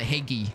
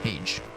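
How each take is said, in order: First: The word is said with two syllables. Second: The word is said with one syllable. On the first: The speaker calls it wrong. "Or is it Hagee?" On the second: The speaker calls it right. "One syllable"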